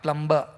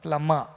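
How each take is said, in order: First: The b sound is pronounced in the middle. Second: The b is silent, like plummer. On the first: The speaker calls it wrong. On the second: The speaker calls it right.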